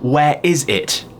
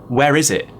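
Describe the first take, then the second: First: The final T in 'it' is clearly pronounced. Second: The final T in 'it' is dropped. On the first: "Instead of saying" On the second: "I could say"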